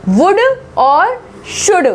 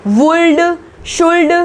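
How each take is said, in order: First: वुड and शुड slow, with no l; higher, slow model of वुड और शुड, straight to d; silent l. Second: वुल्ड, शुल्ड with l before each d; wrong sounded l. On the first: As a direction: say वुड, शुड as wud, shud. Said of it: "ना कि वुल्ड". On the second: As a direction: misread वुल्ड and शुल्ड as wool-du, shool-du. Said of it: "ना कि". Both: Shown as a demonstration.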